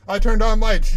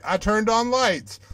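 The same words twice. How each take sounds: First: Turned punched loud; louder insistence. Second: Said in the usual way. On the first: Shown as a demonstration.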